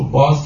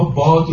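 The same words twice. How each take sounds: First: باز with a final z sound for d; old Persian pronunciation. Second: Said in the usual way. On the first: Shown as a demonstration. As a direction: end باز on a buzzed z.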